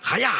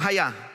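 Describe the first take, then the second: First: The word is shouted sharply like a karate cry. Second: The word is said calmly at normal volume. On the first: "Ahora díganlo así: ... sonaba como un caraquetazo" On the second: "Digan conmigo hayá"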